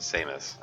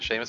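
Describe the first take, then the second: First: The name begins with an 's' sound. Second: The name begins with a 'sh' sound.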